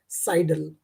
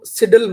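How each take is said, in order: First: साइडल said with a long "sai", as "sai-dl"; correct pronunciation. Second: सिडल said with a short i, as "sid-dl"; wrong pronunciation. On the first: Teacher giving students the correct साइडल, long "sai". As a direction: say साइडल with the long "eye" sound. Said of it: "pronunciation है वो है साइडल". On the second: Teacher showing students the wrong way to say सिडल, short i. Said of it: "इसको सिडल मत बोलना". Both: Shown as a demonstration.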